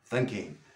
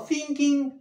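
First: The pitch on the word drops down. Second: The pitch on the word stays up. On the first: The speaker calls it right. "Boom, la bajamos" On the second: The speaker calls it wrong. "No thinking"

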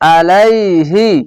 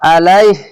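First: The word ends with a final 'hi' vowel. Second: The word stops on 'h' without a vowel. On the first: The speaker calls it wrong. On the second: The speaker calls it right.

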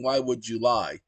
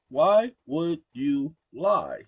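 First: The words are said fast and run together. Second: The words are said slowly and kept apart. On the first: The speaker calls it wrong. "it thinks I'm saying, why would you lie? Like July the month?" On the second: The speaker calls it right. "I have to say it slowly"

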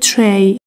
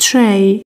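First: The vowel sounds like 'ay'. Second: The vowel sounds like 'ay'.

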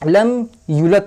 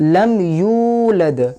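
First: The 'yu' vowel is cut short. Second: The 'yu' vowel is drawn out long. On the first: The speaker calls it wrong. "ওয়াওটাকে সরিয়ে দিচ্ছে, একটা অক্ষর কমিয়ে দিচ্ছে" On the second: The speaker calls it right. "ইউ এই ইউয়ে টান আছে"

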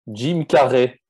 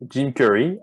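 First: The name is said with French pronunciation. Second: The name is said with English pronunciation. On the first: "et en français, on dit" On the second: "en anglais"

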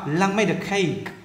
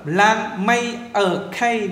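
First: The final d of made links into a. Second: Made and a are said apart without linking. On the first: The speaker calls it right. "đọc nối âm ờ này luôn" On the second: The speaker calls it wrong. "thì nó rất là dở, nó không đúng với tiếng Anh"

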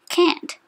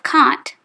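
First: The word is said the American way. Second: The word is not said the American way. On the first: The speaker calls it wrong. "People in the USA have trouble with the words they say" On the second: The speaker calls it right. "Instead of can't"

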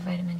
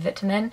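First: It is said in an American accent. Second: It is said in a British accent.

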